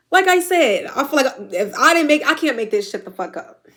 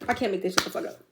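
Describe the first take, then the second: First: Real tears rising, louder and higher at first; pushing through tears, voice lifted; emotional, near tears. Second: Quiet, teary repeat. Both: Real, not acted. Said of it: "I'm a crybaby".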